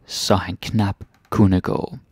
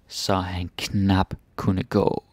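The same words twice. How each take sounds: First: Slow, careful Danish line; slow read. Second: Very slow, with "knap" leaned on; slower, stressing knap. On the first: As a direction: read it slowly, word by word. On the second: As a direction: drag it out and press "knap". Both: Shown as a demonstration.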